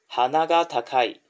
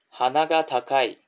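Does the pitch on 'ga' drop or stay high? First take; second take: stays high; stays high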